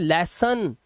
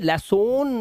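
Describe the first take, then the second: First: The last syllable has a weak 'uh' vowel. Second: The last syllable has a full 'o' vowel. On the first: The speaker calls it right. "इसे पढ़ते हैं लेसन" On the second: The speaker calls it wrong. "इसलिए इसे लेसोन नहीं पढ़ते"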